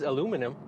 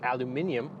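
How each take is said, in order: First: It is said the American way, four syllables. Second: It is said the British way, five syllables. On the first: The speaker calls it wrong. "I spent way too much time around Americans" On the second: The speaker calls it right. "I'm sorry"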